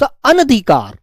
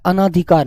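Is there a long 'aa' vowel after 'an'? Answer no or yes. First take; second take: no; yes. First: A short vowel follows the first syllable. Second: A long 'aa' vowel follows the first syllable. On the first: The speaker calls it right. "शब्द अनधिकार" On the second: The speaker calls it wrong. "आ की आवाज मत लगा देना, गलत होता है। अनधिकार नहीं होता"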